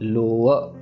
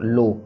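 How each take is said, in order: First: The word ends with a trailing 'a' sound. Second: The word ends on the 'o' sound. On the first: The speaker calls it right. "लो अ आएगा last में" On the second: The speaker calls it wrong. "लो के ऊपर खत्म नहीं कर देना"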